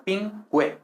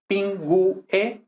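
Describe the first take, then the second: First: "pingüe" slowly as PIN-gwe; two beats, "pingüe" with a w glide; GUE one syllable. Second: "pingue" slowly as pin-GU-e; three separated beats in "pingue"; U as separate syllable. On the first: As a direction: merge U and E in "pingüe". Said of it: "forma una misma sílaba". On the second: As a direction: break "pingue" between U and E. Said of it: "no dos sílabas separadas". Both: Shown as a demonstration.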